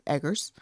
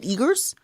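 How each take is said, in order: First: The first vowel sounds like the vowel in egg. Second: The first vowel sounds like the vowel in eagle. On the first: "if I'm saying your last name wrong" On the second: "Is it Eagers?"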